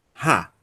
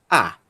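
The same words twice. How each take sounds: First: "ra" with a breathy h at the start; "ra" pronounced as an aspirated ha; strong aspiration. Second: "a" as a pure vowel without any h; unaspirated, isolated "a"; smooth breathing. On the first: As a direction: puff air into the start of "ra". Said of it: "se fosse uma aspiração forte". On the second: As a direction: start "a" straight on the vowel, no puff. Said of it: "é uma aspiração branda". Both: Shown as a demonstration.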